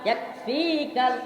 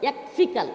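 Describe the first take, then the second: First: The 'fi' vowel is drawn out long. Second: The 'fi' vowel is short, not drawn out. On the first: The speaker calls it wrong. "আমরা পড়ি না এইভাবে?" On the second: The speaker calls it right. "ফি কিন্তু টান হবে না"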